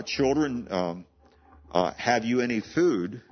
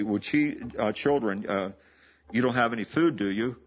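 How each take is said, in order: First: Put-on Children, have you any food? with food lifted as a real question; children falling, food stretched and rising; intonation demo. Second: Put-on children falling, food rising then do you dropping; a leading question, food lifted; English intonation. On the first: Preacher shows how Jesus asked, food lifted. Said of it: "The way we intonate that in our English". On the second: Preacher shows the English way, food rising, do you falling. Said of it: "may go this way". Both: Shown as a demonstration.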